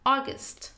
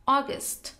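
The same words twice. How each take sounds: No difference in how they are said.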